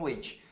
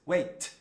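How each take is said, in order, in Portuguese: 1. O t final é pronunciado com força. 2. O t final é muito leve. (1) "eu já ouvi aluno falando wait" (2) "Esse tzinho é t. Wait, wait, tá vendo? É bem leve"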